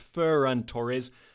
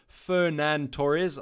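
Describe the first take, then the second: First: The first name is said as Ferran. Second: The first name is said like Fernando. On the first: The speaker calls it right. "It's Ferran Torres" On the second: The speaker calls it wrong. "Apologies for that pronunciation"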